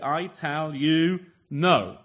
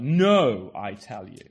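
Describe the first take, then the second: First: "I tell you" drawn out slowly, then a louder, falling "no"; emphatic Jesus quote. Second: Front-load the stress on "No", fade the rest; no first. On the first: Preacher quoting Jesus to his congregation, slow and emphatic on "no". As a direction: lean hard on "no" after a slow, deliberate "I tell you". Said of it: "absolutely emphatic from Jesus". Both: Shown as a demonstration.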